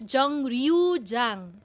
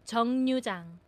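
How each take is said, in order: First: The second syllable starts with an R sound. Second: The second syllable starts with an N sound. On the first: The speaker calls it wrong. "ang reading po niya dapat ay R" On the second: The speaker calls it right. "the real becomes a letter N ... ito po ang tamang reading talaga niya"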